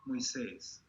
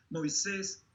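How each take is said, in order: First: Moisés repeated with a falling, settled tune; answering call of the name. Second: Higher, rising call of the name. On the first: God repeats Moses' name, falling and settling. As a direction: let the second Moisés drop and land. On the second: God calls out to Moses from the fire, rising call. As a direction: call out Moisés with a rising tune, like summoning him. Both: Retold or imitated. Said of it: "pronuncia el nombre de Moisés".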